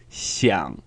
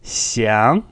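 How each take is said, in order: First: "xiang" low and falling into a croak; rough half third tone on "xiang"; croaky third tone. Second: "xiang" rising smoothly to the end; smooth second tone. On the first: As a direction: sink "xiang" low in the throat, no rise. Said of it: "more croaky or rough". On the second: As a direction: glide "xiang" cleanly upward. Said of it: "One is smooth". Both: Shown as a demonstration.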